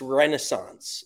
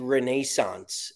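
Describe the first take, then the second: First: The word is said the American way. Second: The word is said the British way. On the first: The speaker calls it right. "It's Renaissance" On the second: The speaker calls it wrong. "why do they say Renaissance? ... why do English"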